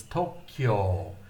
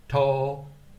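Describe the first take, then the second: First: "Tokyo" said slowly with kyo as one syllable and both o sounds long; slow "Tokyo", kyo joined into one syllable and long vowels; correct Japanese Tokyo. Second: "Tokiyo" said slowly as three full syllables, to-ki-yo, louder; wrong three-syllable Tokyo. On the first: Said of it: "It's not Tokyo. It's Tokyo". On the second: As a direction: spell out "Tokiyo" as to-ki-yo, the wrong way, with a loud clear ki. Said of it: "It's not Tokyo". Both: Shown as a demonstration.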